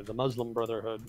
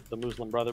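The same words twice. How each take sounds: First: "Muslim" with an uh vowel, MUZ-lum; American-style "Muslim", short uh and a z; corrected pronunciation. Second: "Muslim" with an oo vowel, MOOZ-lim; self-caught slip. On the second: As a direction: say "Muslim" as MOOZ-lum, breaking off. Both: Real, not acted.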